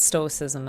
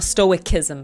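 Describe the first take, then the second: First: The c is said as an s sound. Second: The c is said as a k sound. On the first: The speaker calls it right. "I would pronounce the C, uh, C as an S" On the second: The speaker calls it wrong. "It's not stoicism"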